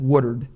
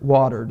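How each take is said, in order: First: It is said in a South Jersey accent. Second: It is said in a standard, careful pronunciation. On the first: The speaker calls it wrong. "like we do in South Jersey" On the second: The speaker calls it right. "Notice how well I pronounce that word"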